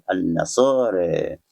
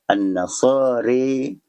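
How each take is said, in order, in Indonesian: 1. Vokal akhirnya di antara a dan e. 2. Vokal akhirnya bunyi e yang jelas. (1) "bayina-bayina dengan bacaan" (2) "imalah kubra bunyinya"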